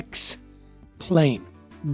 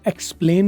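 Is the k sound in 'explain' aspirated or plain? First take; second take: aspirated; plain. First: The k sound is breathy, like kh. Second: The k sound is plain, without a breathy kh. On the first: The speaker calls it right. "एक्स में काफ आ रहा है ना, वो खे का होगा" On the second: The speaker calls it wrong. "नहीं बोलेंगे"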